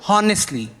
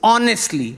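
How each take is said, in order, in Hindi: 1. इस शब्द की शुरुआत में H बोला जाता है। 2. इस शब्द की शुरुआत में H की आवाज़ नहीं है। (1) "it's not honestly" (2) "The H is silent"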